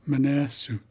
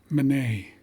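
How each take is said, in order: First: A longer form with a 'ne' sound. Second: A short form ending in a 'nay' sound. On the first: The speaker calls it right. "and then accurate" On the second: The speaker calls it wrong. "the approximate way first"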